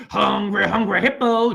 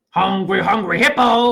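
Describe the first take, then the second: First: Said in the usual way. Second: "hungry hippo" with a lift on "hippo"; louder playful "Hungry, hungry hippo"; game jingle. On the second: Shown as a demonstration. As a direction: chant it like the toy ad. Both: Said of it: "Remember that game?".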